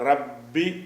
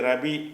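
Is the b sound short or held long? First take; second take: long; short. First: The b sound is pressed and doubled. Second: The b sound is short and single.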